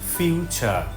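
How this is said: The final r sound is dropped. This is the British pronunciation. "ব্রিটিশরা আর এন উচ্চারণ করবে না"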